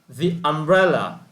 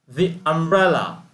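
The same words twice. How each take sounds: No difference in how they are said.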